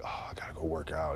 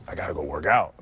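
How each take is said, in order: First: Reluctant chore. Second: Eager for it. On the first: Player mimicking someone who sees training as work, mock reluctance. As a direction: groan it softly like a burden. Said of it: "It's not, it's not like". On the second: Player showing that working out is fun, eager. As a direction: say it like you can't wait to train. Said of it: "It's like". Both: Acted.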